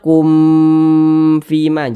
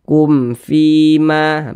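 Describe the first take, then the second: First: The m sound is stretched out long. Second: The m sound is kept short and clear. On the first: The speaker calls it wrong. "Jangan dibaca kum fima, jangan" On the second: The speaker calls it right. "dibaca pendek saja"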